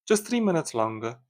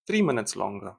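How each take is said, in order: First: Just said higher, stretched out; stress on just. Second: Said in the usual way. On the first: Shown as a demonstration. Annoyed driver stressing how long the coffee takes, with a stressed just. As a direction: lean hard on the word just.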